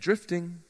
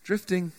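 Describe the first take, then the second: No difference in how they are said.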